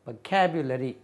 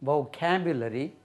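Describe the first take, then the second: First: The first syllable has an 'uh' vowel. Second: The first syllable has an 'oh' vowel. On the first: "वो भी वो और व।" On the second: "वो भी वो और व।"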